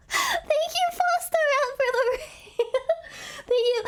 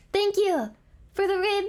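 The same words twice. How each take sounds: First: Very high, excited thank-you; excited squeal. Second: Said in the usual way. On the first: Real, not acted. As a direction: squeal your thanks for the raid. Thanking a raider on stream.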